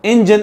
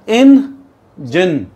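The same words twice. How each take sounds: First: Said in the usual way. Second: "engine" very slowly as IN, pause, JAN; two separate syllables. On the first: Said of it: "engine एक नहीं है". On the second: Shown as a demonstration. Teacher divides the word, "engine" broken as in, jan. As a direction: split "engine" into two loud, high beats. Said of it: "इन अलग है".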